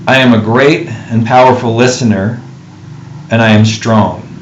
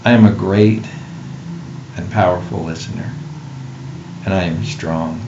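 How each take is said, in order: First: It is said in a normal voice. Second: It is said in a reverent voice.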